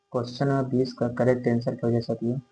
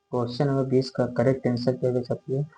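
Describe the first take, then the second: The two takes are said the same way.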